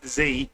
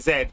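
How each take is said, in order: First: The letter is said the American way, zee. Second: The letter is said the British way, zed.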